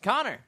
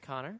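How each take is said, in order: First: The name is called out abruptly and sharply. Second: The name is said softly in a soothing voice.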